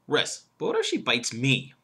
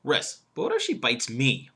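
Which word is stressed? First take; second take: me; me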